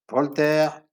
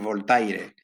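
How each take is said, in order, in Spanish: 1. El nombre se dice con pronunciación francesa. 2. El nombre se dice con pronunciación española. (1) "los pronuncio en francés porque estoy acostumbrado a pronunciarlo así" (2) "Me resulta ya extraño decir"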